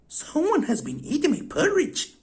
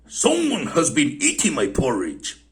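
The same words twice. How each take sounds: First: It is said in a medium-sized voice. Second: It is said in a great big voice.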